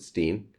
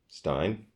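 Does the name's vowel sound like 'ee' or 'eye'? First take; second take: ee; eye. First: The vowel sounds like 'ee'. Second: The vowel sounds like 'eye'.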